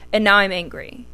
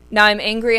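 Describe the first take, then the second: First: Said in the usual way. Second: Now I'm angry, louder and punched on "Now"; emphatic repeat. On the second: Real, not acted. Repeating to viewers that she is angry now, louder. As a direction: lean hard into "Now" the second time.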